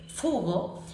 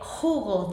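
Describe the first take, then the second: First: The word begins with an f sound. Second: The word begins with a throaty h sound. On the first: The speaker calls it wrong. "dice fugo, quiere decir que no ha localizado el punto y está compensando" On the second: The speaker calls it right. "en lugar de decir eh, jugo"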